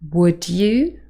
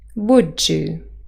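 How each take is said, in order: First: The d and y sounds stay separate. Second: The d and y sounds blend together. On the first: "received pronunciation" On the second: "yod coalescence"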